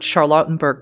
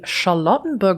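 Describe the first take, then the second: First: The name is said in an American accent. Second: The name is said in a non-American accent.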